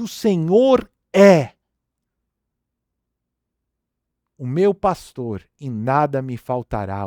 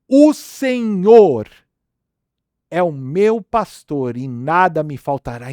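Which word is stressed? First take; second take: é; Senhor. First: The stress is on "é". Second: The stress is on "Senhor".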